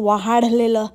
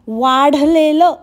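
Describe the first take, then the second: First: An extra 'ha' syllable breaks up the word. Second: The word is said compactly without extra syllable. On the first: The speaker calls it wrong. "वाहाडलेलं काय शब्द आहे बाबा" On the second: The speaker calls it right. "वा हा शब्द पण उच्चारता येत नाही"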